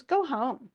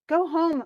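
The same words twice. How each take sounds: First: Said in the usual way. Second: Higher, louder, shouted "Go home"; angry shout. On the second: Retold or imitated. King dismissing Achilles in a loud shout. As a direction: bark "Go home" loudly at him.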